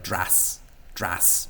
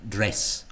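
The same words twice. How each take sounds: First: "dras", dress with the vowel opened to an a; lowered e vowel. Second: Said in the usual way. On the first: Shown as a demonstration. Teacher showing a Dublin vowel, lowered e in "dras". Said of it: "it almost sounds like an a". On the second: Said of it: "the e vowel, as in dress".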